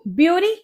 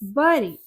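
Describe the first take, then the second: First: The first vowel sounds like 'byoo'. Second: The first vowel sounds like 'beh', as in berry. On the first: The speaker calls it wrong. "ये ब्यूरी नहीं होता" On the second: The speaker calls it right. "ये होता है बरी"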